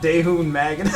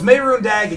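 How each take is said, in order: First: The first word begins with a D sound. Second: The first word begins with an M sound. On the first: The speaker calls it wrong. "not Daehun Magan" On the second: The speaker calls it right. "it's Mehrunes Dagon"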